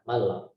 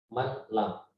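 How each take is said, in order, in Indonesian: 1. Bunyi n melebur ke l tanpa dengung. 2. Bunyi n diucapkan terpisah sebelum l. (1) "Jadi masuk saja mal, kemudian tanpa ditahan" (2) "Kalau tidak dimasukkan, maka menjadi man lam"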